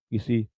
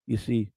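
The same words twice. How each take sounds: The two takes are said the same way.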